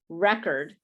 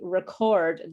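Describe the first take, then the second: First: The stress is on the first syllable. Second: The stress is on the second syllable. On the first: It is used as a noun. "the first one is record, like I have a record" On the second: It is used as a verb. "you're using it as a verb, and the the word stress is in a different place"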